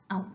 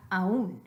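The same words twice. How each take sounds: First: AÚN merged into one syllable; the wrong aún, A gliding into U; one-syllable aun. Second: AÚN split as a-ÚN; two-syllable aún. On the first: Teacher naming what we don't want, one-syllable aún. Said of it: "we don't want aún". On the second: Teacher giving the form we want, two-syllable a-ÚN. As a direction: give the ú of aún its own stressed beat. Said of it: "We want aún". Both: Shown as a demonstration.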